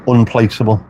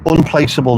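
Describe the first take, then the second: First: Said in the usual way. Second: Unplaceable said higher, each syllable marked, falling at the end; emphatic correction. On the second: Shown as a demonstration. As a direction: stress Unplaceable to correct the word. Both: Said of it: "You used the phrase to describe your voice".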